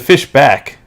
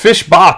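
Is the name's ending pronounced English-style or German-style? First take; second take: English-style; German-style. First: The name ends with a plain English k. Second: The name ends with a German-style sound.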